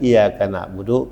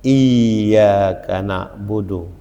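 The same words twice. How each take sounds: First: The y sound is short and single. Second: The y sound is held long and doubled. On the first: We worship the sun. The speaker calls it wrong. "Kalau dibacakan iyyaka na'budu, kepadamu hai matahari aku menyembah" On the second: We worship only God. The speaker calls it right. "jagalah tasdidnya"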